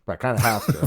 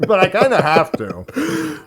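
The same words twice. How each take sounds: First: Talking through a mouthful; chewing while speaking; mouth full. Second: Slow words round a bite of food; chewing, higher and slower; mouth full. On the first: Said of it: "I don't wanna talk with my mouth full". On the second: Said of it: "But you are". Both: Real, not acted.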